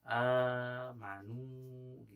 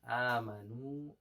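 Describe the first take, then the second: First: The first vowel is stretched overly long. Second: The first vowel is held a normal length. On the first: The speaker calls it wrong. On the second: The speaker calls it right. "a-nya harusnya dua harokat"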